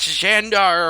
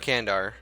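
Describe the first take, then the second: First: The name begins with an Sh sound. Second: The name begins with a K sound. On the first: The speaker calls it right. "It's Shandar, or however you pronounce it" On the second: The speaker calls it wrong. "I know it's not Kandar"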